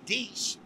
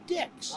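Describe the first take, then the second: First: Pronounced the French way, like 'deece'. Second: Pronounced the English way, rhyming with 'six'. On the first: The proper French reading of the word for ten. "they wouldn't say dix" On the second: The way the visitors read the word. "they'd say dix"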